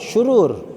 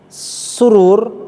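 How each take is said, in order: First: The word begins with an 'sh' sound. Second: The word begins with an 's' sound. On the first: It means evil or badness. The speaker calls it right. "Syurur dengan sya" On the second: It means happiness. The speaker calls it wrong. "Kalau dibaca dengan sin"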